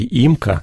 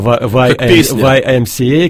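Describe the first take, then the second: First: The acronym is read as one word. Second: The acronym is spelled out letter by letter. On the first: "Я всегда читал это по-русски «имка»" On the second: "только недавно мне сказали, что это"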